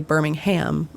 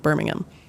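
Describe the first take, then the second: First: It is said with an American pronunciation. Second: It is said with a British pronunciation. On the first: "I don't say Birmingham" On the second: "I say Birmingham"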